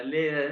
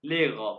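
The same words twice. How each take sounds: First: लेगर with a clear final r, the mistaken way; wrong pronunciation. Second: लेगा with no r, ending on an open a; German pronunciation. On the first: Teacher showing students the wrong way: लेगर with the r. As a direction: say लेगर sounding the r at the end. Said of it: "इसको आपने लेगर नहीं कहना". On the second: Teacher showing students the right way: लेगा with no r. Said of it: "German वाले pronounce करते हैं लेगा". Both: Shown as a demonstration.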